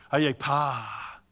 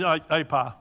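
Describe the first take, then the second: First: "pa" drawn out long and slow; long-held PA. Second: Said in the usual way. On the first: Shown as a demonstration. Speaker showing a Ghanaian reply that means doing good, long-held "pa". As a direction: hold the vowel of "pa" as it falls away. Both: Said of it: "longer you hold pa, the better".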